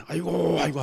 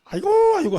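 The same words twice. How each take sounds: First: A light mock 아이고 cry, louder; mock wail. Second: Very high, loud keening 아이고; loud funeral wail. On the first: Pastor showing what mourners should cry, mock wailing. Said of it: "어디". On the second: Pastor showing the congregation how to wail at his funeral, loud keening. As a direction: wail 아이고 like a grieving mourner. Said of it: "막, 막, 막". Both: Shown as a demonstration.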